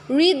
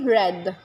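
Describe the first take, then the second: First: It is said with a long vowel. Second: It is said with a short vowel. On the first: It is the present tense. "kapag present tense, read ang basa dyan" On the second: It is the past tense. "kapag binasa mo in past form, dapat po ito nagiging read"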